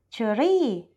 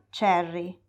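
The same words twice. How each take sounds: First: It is said with a Thai pronunciation. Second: It is said with an English pronunciation. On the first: "un thailandese dirà cherry" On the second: "e non cherry"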